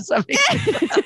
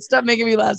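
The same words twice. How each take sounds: First: Cracking up mid-sentence; laughing. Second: Said in the usual way. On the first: Real, not acted. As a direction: voice squeaking high into giggles.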